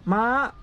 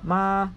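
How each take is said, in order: First: The word is said on a high tone. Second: The word is said on a flat level tone. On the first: It means horse. "high tone ma means horse" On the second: It means to come. "the flat tone ma means to come"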